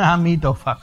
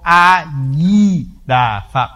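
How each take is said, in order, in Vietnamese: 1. Âm tiết thứ hai bắt đầu bằng âm M. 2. Âm tiết thứ hai bắt đầu bằng âm D. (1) "phúc kiến nó nói A Mi Đà Phật, nó tiếng Tàu" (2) "Còn nói tiếng Việt Nam là Nam mô A Di Đà Phật"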